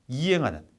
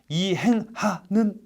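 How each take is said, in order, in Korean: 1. 가운데 ㅎ은 약하게, 부드럽게 이어집니다. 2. 가운데 ㅎ은 세게, 끊어지듯 발음합니다. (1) "그냥 이행하는" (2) "이걸 이행, 이행하는 이런 느낌일 필요는 없다는 거예요"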